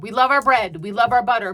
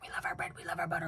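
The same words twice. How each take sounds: First: It is said at normal volume and pace. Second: It is said quietly and quickly.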